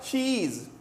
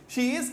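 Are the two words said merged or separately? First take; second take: merged; separately. First: The two words are merged into one syllable. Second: The two words are said separately and fully.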